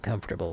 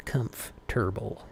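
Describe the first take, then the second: First: Said in the usual way. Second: "Comfortable" broken in two, as if read phonetically; spelled-out pronunciation. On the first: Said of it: "That's how it's spelled". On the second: Shown as a demonstration. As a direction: sound out "Comfortable" as spelled, pausing mid-word. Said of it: "That's how it's spelled, right? Phonetically".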